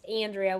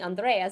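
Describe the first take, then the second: First: It is said with an upstate New York twang. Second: It is said with a Latin-style pronunciation.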